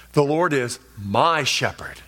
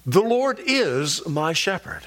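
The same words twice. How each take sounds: First: "my" set apart and stretched out; stress on "my". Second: Slow line with "is" drawn out; stress on "is". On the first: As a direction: put the weight on the pronoun "my". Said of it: "Ron emphasized the personal pronouns". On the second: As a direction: put the weight on "is". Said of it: "putting emphasis on diff-, different word". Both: Shown as a demonstration.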